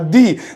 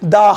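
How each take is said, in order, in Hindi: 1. स्वर एक लंबी 'ee' ध्वनि है। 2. स्वर एक छोटी 'uh' ध्वनि है। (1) "वो दी कहलाएगा" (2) "वहां पे उसे द बोलेंगे"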